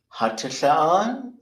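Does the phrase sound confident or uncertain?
uncertain. It is said hesitantly with a high pitch. The speaker is unsure of the answer. The speaker calls it wrong. "like you're putting like this ridiculously high tone thing on it, which signals uncertainty"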